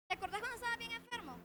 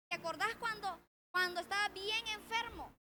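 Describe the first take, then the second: First: Rattled off fast and higher; quick mock reproach. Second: Said in the usual way. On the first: God chiding the healed believer who quit church, quick and higher. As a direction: toss the reminder back, faster and higher.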